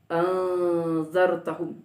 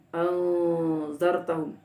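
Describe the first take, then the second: First: The second glottal stop is softened. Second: The same.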